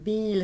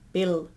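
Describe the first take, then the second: First: The vowel is a tense Swedish i, lips spread. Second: The vowel sounds like a short English i. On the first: The speaker calls it right. "yeah, yeah, that's super good" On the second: The speaker calls it wrong. "no, no, no, now you lost it"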